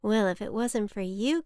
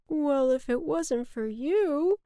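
First: Lightly voiced storybook boy; sincere boy, close to the narrator's own voice; little boy character. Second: High, slow storybook cloud; put-on cloud voice, drawn out and raised; cloud character. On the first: Boy thanks the cloud for the rainbow, lightly voiced. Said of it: "Cloud, I would have never". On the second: Cloud returns the boy's thanks, slow character voice. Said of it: "said the cloud to the boy". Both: A narrator's reading.

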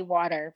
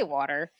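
First: "water" with a Long Island "aw"; Long Island rounded vowel in "water"; Long Island accent. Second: Said in the usual way. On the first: Shown as a demonstration. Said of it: "in Long Island, that's how they say". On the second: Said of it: "but we say water".

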